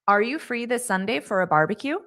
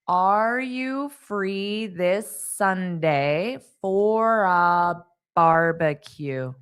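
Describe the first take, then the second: First: The sentence is spoken at natural speed. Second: The sentence is spoken slowly and carefully. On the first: "Now I'll say it the way a native would" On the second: "So I'll say it slowly"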